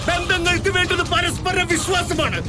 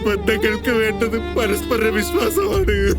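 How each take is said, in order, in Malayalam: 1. ഉറക്കെ, ദേഷ്യത്തോടെയാണ് ഇത് പറയുന്നത്. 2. സങ്കടത്തോടെ, വിഷമത്തോടെയാണ് ഇത് പറയുന്നത്. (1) "എടാ ഇത്രയും ലൗഡാവല്ലടാ" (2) "എടാ സങ്കടമല്ലടാ"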